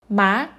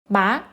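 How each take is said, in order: The two takes are said the same way.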